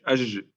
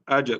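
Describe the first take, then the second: First: The j sound is drawn out and flowing. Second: The j sound is stopped short and forceful. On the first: The speaker calls it wrong. "Bukan ajj" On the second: The speaker calls it right. "Ini jim yang benar"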